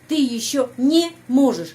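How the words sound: 'Не' is separated from the verb by a break. The speaker calls it wrong. "Karena orang asing biasanya pisahkan ya. ... Jadi begini"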